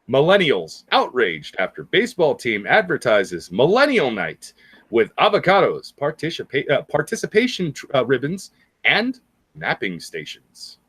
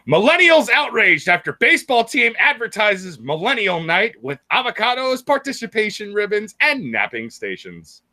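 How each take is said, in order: First: It is read more slowly. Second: It is read at normal speed.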